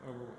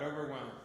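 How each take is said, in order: First: Overwhelmed said much softer and lower, almost breathed; a softer final echo of overwhelmed; hushed repeat. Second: Quiet echo. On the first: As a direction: let the word overwhelmed fade to a near hush. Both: Real, not acted. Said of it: "just overwhelmed by the goodness".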